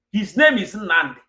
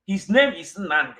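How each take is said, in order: Both takes have the same delivery.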